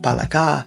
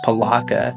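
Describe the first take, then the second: First: It is said with a native Tagalog pronunciation. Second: It is said with an Americanized English pronunciation. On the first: This is how it is said in the original language. "in the Filipino native tongue it's pronounced" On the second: This is easier for American customers to say. "better pronounced palaka for just the average consumer here"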